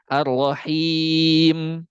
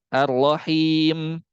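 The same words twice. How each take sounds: First: The long vowel is held for four counts. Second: The long vowel is held for two counts. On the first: "Yang kedua bisa empat harokat" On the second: "Yang satu bisa dua harokat"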